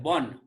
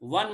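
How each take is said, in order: First: The word begins with a B sound. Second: The word begins with a V sound. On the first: This is the Bengali way of saying it. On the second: This is the Hindi way of saying it.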